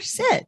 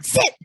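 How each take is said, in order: First: It is said in a gentle, inviting way. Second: It is said impatiently and demandingly.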